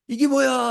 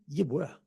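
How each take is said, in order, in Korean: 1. 이 질문은 놀라고 감탄하는 느낌이에요. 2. 이 질문은 짜증 내고 투덜대는 느낌이에요. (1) "이게 뭐야가 억양이 바뀌어요" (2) "불평이 나옵니다"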